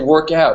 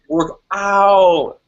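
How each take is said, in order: First: The 'out' vowel is said lightly, Canadian style. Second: The 'out' vowel is heavily emphasized and stretched.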